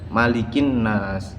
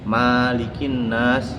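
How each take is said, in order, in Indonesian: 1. Vokal pertama dibaca pendek. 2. Vokal pertama dibaca panjang. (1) "malik dengan mim dibaca pendek" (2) "Malik dengan huruf mim dibaca, dibaca panjang"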